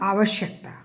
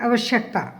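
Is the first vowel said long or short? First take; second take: long; short. First: The first vowel is said long. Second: The first vowel is said short. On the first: The speaker calls it right. "सही शब्द है उसका" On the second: The speaker calls it wrong. "अक्सर जल्दी जल्दी में कहते हैं"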